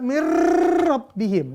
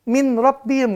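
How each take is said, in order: First: The r is exaggerated with a long trill. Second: The n is clearly pronounced before r. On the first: "nggak boleh dibaca mir rabbihim ... latihan R itu mah" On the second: "nggak boleh baca min rabbihim"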